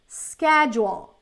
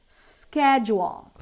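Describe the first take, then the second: Both takes have the same delivery.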